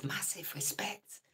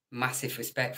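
First: Slow breathy hushed whisper. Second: Said in the usual way. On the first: Real, not acted. Greeting a viewer while his wife sleeps, whispering. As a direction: keep it down, someone's asleep next door. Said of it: "Shh, the missus is in bed". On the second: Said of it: "same greeting later whispered".

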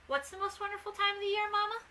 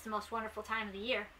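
First: High-pitched little puppy voice; curious puppy. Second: Said in the usual way. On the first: A narrator's reading. Scamp asks his mother about the wonderful time, in a high puppy voice. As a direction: ask it as an eager child, pitched high.

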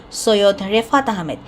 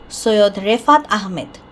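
Both takes have the same delivery.

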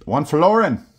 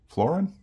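First: Hammed-up Australian accent, "One florin." pitched higher and louder; cheesy Australian accent, "florin" drawn out; fake Australian accent. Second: "Florin?" tried as a high, questioning rise; guessing at "Florin?" with an upward lilt; unsure attempt. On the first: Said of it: "my fake Australian accent". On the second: Real, not acted. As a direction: sound out "Florin?" hesitantly, pitch climbing. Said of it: "I'm sure I butchered that".

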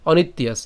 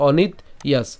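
First: "অনিত্যাস" joined, ত gliding into য; said together. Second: "অনিত ইয়াস" as two separate pieces; split after ত. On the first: Teacher showing the joined form, "অনিত্যাস" in one piece. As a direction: run "অনিত্যাস" as one word without a gap. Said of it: "একসাথে উচ্চারণ করলে". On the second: Teacher showing where it was cut, "অনিত ইয়াস" broken in two. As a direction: stop on the ত of "অনিত", then say "ইয়াস". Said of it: "ত পর্যন্ত এনেছিলাম". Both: Shown as a demonstration.

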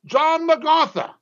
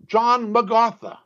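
First: "John MacArthur," raised high in disbelief; incredulous emphasis. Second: Said in the usual way. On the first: Shown as a demonstration. Preacher stunned that John MacArthur teaches this, "John MacArthur" pitched up high. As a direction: say "John MacArthur" as if it can't be true. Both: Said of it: "Of all people".

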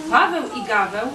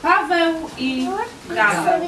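First: Said in the usual way. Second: "Paweł i Gaweł" said higher with a pause before "Gaweł"; title read out as a heading; title announced. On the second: Shown as a demonstration.

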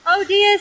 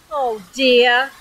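First: High-pitched, lightly acted concern; doctor tutting over a patient; a hint of storybook alarm. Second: Mild weary groan; understated storybook dismay. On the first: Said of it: "said the doctor". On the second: Acted. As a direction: groan it, dragged out of bed. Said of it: "groaned Mister Happy".

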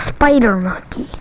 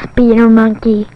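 First: "spider" with a long i in the first syllable; corrected spider. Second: "speeder" with a long ee in the first syllable; mispronounced spider. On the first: Lisa corrects the monkey, saying "spider" with i as in spy. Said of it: "You're not supposed to be a speeder monkey". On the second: Lisa corrects the monkey's name, stressing wrong vowel "speeder". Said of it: "You're a spider monkey". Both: Acted.

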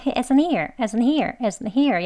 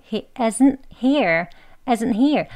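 First: Brisk he isn't here, tiny catch kept; rapid isn't here with an unreleased t; quick pronunciation. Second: He isn't here with a measured stop; careful isn't here, brief catch before here; slight break. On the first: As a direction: say he isn't here fast, still stopping after isn't. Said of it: "빨리 발음하더라도요". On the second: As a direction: separate isn't from here with a held t. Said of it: "약간 그 끊긴 느낌". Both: Shown as a demonstration.

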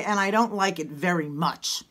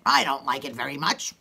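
First: Said in the usual way. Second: Low, emphatic grumble; like you mean it. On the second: Shown as a demonstration. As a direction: say it low, really meaning it. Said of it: "say it like you mean it".

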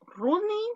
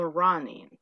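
First: "Running" with an OO vowel, as ROO-ning; Spanish U in "Running"; pronunciation option with U. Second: "running" with an open vowel, as RAH-ning; pronunciation option with O. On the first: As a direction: say "Running" slowly, first syllable like roo. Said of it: "¿cómo se pronuncia". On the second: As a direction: say "running" slowly, first syllable like rah. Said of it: "Es como con O". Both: Shown as a demonstration.

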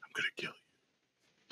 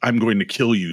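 First: Barely audible imitated ghost whisper; whispery threat. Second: Said in the usual way. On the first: Playback of the voice on tape, whispered threat. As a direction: breathe the threat out in a hushed whisper. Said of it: "Whispery voice".

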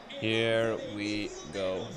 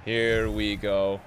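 First: Very slow, quiet and low; weary drawl. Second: Slow, low drawn-out words; slow drawl. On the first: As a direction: drag it out, barely voiced. Repeated even slower, softer. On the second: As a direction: stretch it out slowly. Match starting, drawn out. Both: Real, not acted.

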